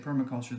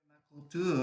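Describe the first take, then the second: First: It is said with an ordinary English accent. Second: It is said with a French accent.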